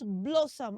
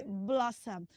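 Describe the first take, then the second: First: "blossom" as BLOW-som, long o; wrong pronunciation. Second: "Blossom" with short open o, lower; correct pronunciation. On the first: Teacher recapping what is wrong, mispronounced "blossom". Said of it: "So it is not blossom". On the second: Teacher closing the correction, properly pronounced "Blossom". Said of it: "Don't blow it. You blow it". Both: Shown as a demonstration.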